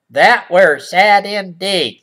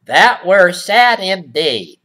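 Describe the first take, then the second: First: Put-on old-fashioned line again. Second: Mock old-fashioned. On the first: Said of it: "said the boy". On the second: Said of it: "Who talks like that?".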